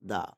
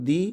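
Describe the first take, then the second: First: "the" pronounced "da", short open vowel, falling; the said as duh. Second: "the" pronounced "dee", long ee vowel, rising. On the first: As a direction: say "the" like "da" before consonants. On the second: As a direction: say "the" like "di" before vowels. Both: Shown as a demonstration. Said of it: "এটার উচ্চারণ কিন্তু দুই রকম".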